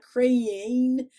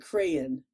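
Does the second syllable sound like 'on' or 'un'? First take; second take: on; un. First: The second syllable has a full 'on' vowel. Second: The second syllable has a reduced 'un' vowel. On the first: The speaker calls it wrong. "Not not crayon" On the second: The speaker calls it right. "it's like C R A Y U N, crayon"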